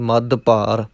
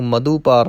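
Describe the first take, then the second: First: The dh sound is doubled with no extra vowel. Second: An extra u vowel follows the dh sound. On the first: The speaker calls it right. "ਧੱਦੇ ਨੂੰ ਭਾਰਾ ਕਰਕੇ ਬੋਲਣਾ ਹੈ" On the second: The speaker calls it wrong. "ਇਹਨੂੰ ਮਧੂਪਾਰ ਨਹੀਂ ਕਹਿਣਾ"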